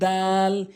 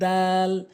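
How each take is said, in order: Both takes have the same delivery.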